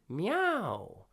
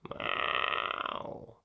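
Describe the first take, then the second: First: The meow is said cleanly and clearly. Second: The meow is placed back at the soft palate. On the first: "first clean" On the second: "Now let's aim it to the soft palate"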